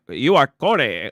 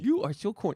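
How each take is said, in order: First: It is said in a put-on mega voice. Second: It is said in his normal voice.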